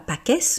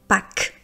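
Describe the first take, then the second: First: The final S is pronounced aloud. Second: The final S is not pronounced. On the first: The speaker calls it wrong. "on ne dit pas" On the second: The speaker calls it right. "mais on dit"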